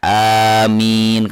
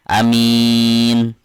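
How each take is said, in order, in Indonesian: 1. Vokal pertama diucapkan panjang. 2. Vokal pertama diucapkan pendek. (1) "Kalau ini kan alifnya dibawa panjang ya" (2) "amin dengan alif dibaca pendek"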